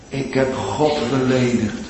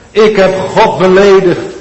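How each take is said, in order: First: Said in the usual way. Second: Louder and higher, pleading; anguished confession. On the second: Acted. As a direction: cry out the guilt. Sinner's anguished confession voiced. (luid en smekend uitgeroepen)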